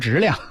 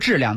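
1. 这个词带有非标准口音。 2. 这个词用的是标准普通话。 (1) "他说质量" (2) "他不说质量"

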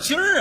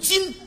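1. 这个词结尾带儿化音。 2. 这个词结尾不带儿化音。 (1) "什么叫今儿啊？" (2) "正字读今"

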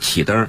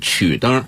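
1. 第一个音节读 qi。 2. 第一个音节读 qu。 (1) "但读应该是启灯" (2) "写出来是曲灯"

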